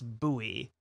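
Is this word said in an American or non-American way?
American. The word is said in an American pronunciation. "Americans get made fun of for the way that we pronounce buoy"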